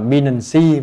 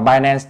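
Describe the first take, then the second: First: It is said with a Vietnamese-style pronunciation. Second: It is said with an English pronunciation.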